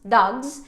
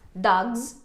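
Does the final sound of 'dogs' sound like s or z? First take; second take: z; z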